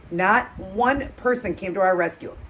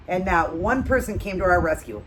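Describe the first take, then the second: First: Slow, stress on "one", held long; slow emphatic repeat. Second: Said in the usual way. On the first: Shown as a demonstration. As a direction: lean hard on "one" and slow it down.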